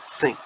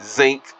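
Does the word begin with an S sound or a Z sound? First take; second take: S sound; Z sound. First: The word begins with a hissing s sound. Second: The word begins with a buzzing z sound. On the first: The speaker calls it right. "It's the sink" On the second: The speaker calls it wrong. "They can't even say zinc right"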